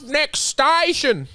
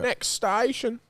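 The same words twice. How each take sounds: First: Stretched slowly and high, like a station call; drawn-out announcement. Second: The same line said quietly, almost to himself; softer repeat. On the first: Repeating a remembered line. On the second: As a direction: drop it to a murmur. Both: Retold or imitated.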